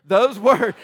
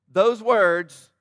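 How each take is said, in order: First: Those words said loud through a laugh; amused loud redo; laughing retake. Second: Loud, punched emphasis on Those words; over-eager loud pastor emphasis; very enthusiastic. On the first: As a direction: laugh at yourself as you repeat it. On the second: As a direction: throw Those words out with big energy. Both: Real, not acted. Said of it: "that was very enthusiastic".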